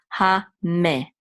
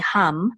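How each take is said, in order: First: The m is followed by a short vowel. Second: The m ends the syllable with no vowel. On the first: The shva is sounded. "because the mem has a dagesh, we're going to sound it" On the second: The shva is silent. "If it didn't have the dagesh, we wouldn't sound it. We would just say hum"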